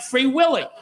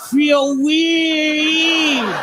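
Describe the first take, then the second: First: It is said in the speaker's ordinary accent. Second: It is said in an imitated Japanese accent.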